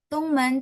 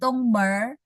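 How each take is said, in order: First: The word ends with an n sound. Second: The word ends with an r sound. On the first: The listener does not understand it. The speaker calls it wrong. "dia nggak ngerti men" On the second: The listener understands it right away. The speaker calls it right. "kalau langsung tambahin Tongmer"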